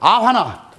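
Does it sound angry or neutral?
neutral. It is said in a plain, neutral tone.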